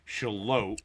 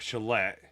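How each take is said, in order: First: The name ends with a long 'lote' sound. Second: The name ends with a short 'let' sound. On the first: The speaker calls it right. "we made sure that we learned the name of the town" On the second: The speaker calls it wrong. "not Shalette"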